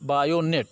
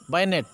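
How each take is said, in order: First: The word is said in full, three syllables. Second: The word is shortened to two syllables. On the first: It is the proper name of the weapon. "वास्तव में इसका जो नाम है वो है बायोनेट" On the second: It is how soldiers say it in everyday speech. "बोलने की भाषा में फौजी बोलते हैं बैनेट"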